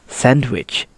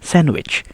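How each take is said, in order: First: The d sound is pronounced. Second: The d sound is silent. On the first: The speaker calls it wrong. "that is the wrong way to say it" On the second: The speaker calls it right. "We only read the consonant N sound before the letter D"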